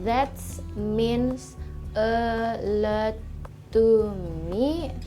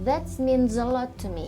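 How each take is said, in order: First: Each word is said separately, not linked. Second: The words are linked together smoothly. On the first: The speaker calls it wrong. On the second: The speaker calls it right.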